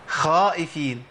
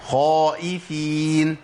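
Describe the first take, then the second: First: The first consonant is pronounced light and thin. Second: The first consonant is pronounced heavy and full. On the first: The speaker calls it wrong. "دخلت على الحرف بهيئه الترقيق" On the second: The speaker calls it right. "الاستعلاء، التفخيم"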